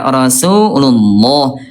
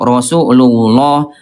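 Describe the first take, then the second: First: The heavy sound comes from raising the tongue root. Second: The heavy sound comes from pushing the lips forward. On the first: The speaker calls it right. "dengan cara mengangkat pangkal lidah" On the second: The speaker calls it wrong. "bukan dengan cara monyong"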